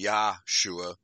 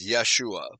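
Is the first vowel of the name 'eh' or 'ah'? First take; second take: ah; eh. First: The first syllable has an 'ah' vowel. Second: The first syllable has an 'eh' vowel. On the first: The speaker calls it right. "I think it should be Yahshua, that would be the correct Hebrew pronunciation" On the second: The speaker calls it wrong. "they promote it as Yeshua"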